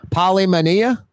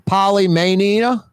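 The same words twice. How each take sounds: Both takes have the same delivery.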